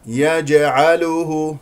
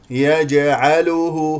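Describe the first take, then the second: No difference in how they are said.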